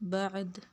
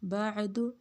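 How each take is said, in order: First: The word ends on a bare consonant. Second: The word ends with a short -u vowel. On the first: The reading stops on this word. "वक़फ़न" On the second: The reading continues into the next word. "वस्लन"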